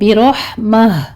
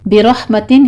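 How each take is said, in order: First: The word ends with a soft h sound. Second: The word ends with a full t and nunation. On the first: The reciter stops on this word. "हा में बदल देंगे इसको" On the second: The word is joined to what follows. "यहाँ पे ताई मरबूता है"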